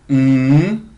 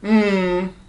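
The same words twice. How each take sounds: First: The hum's pitch rises from low to high. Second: The hum's pitch falls from high to low. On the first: "c'est le ton montant ... se mime mm" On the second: "c'est le ton descendant ... se mime mm"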